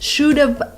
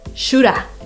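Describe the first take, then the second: First: Both words are said fully and separately. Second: The words blend into one reduced word. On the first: The speaker calls it wrong. "you just don't want to speak like this" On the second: The speaker calls it right. "So what is an easy way? Shoulda"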